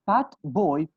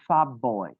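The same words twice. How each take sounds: First: Put-on "fat boy" with a clear t; unchanged t. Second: Put-on "fat boy" run together as "fab boy"; changed t sound. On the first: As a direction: keep the t in "fat" before "boy". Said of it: "do you say". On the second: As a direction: turn the t of "fat" into a lip stop. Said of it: "You will change T sound to P". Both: Shown as a demonstration.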